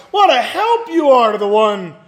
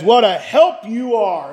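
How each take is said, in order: First: Mocking. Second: Said in the usual way. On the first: Job answers his friends who failed him, mocking. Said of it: "in a mocking voice". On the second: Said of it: "He says".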